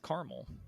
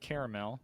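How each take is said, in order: First: The word is said with two syllables. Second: The word is said with three syllables. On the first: "they just really throw that A away" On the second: "I say caramel. It's almost the same as when I say crayon"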